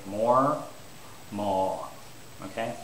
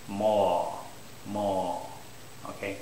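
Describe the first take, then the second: The two takes are said the same way.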